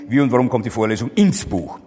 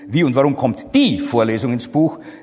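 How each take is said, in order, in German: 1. Die Betonung liegt auf dem Wort Buch. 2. Die Betonung liegt auf dem Wort kommt.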